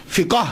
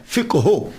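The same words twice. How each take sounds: First: "فقہ" drawn out slowly as fi-kaa; common pronunciation. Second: "فقہ ہو" slowly as fiq-hu; correct Arabic pronunciation. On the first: Lecturer showing the everyday form, "فقہ" slowly as fikaa. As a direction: open a at the end of "فقہ". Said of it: "دیکھا نا عام چلتا ہے نا". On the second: Lecturer repeating the correct form for listeners, "فقہ ہو" as fiq-hu. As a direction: close the q straight onto the h in "فقہ ہو". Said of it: "اس کا پروننسی-، pronunciation". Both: Shown as a demonstration.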